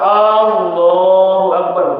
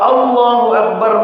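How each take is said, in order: First: The opening vowel of Allahu is drawn out long. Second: The opening vowel of Allahu is kept short. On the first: It asks whether God is great. The speaker calls it wrong. "hamzahnya agak dipanjangkan" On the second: It states that God is great. The speaker calls it right. "maknanya Allah Maha Agung"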